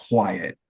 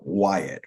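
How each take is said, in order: First: "Wyatt" said as "W-wyatt", with a W before the name; extra W in Wyatt. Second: Said in the usual way. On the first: Shown as a demonstration. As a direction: slide a W onto the start of "Wyatt". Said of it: "still insert that W to go along with the Y". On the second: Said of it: "they're trying to still insert that W".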